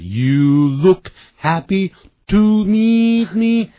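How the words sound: It is said with a foreign-sounding accent. "他是……就有点呢就是外国腔"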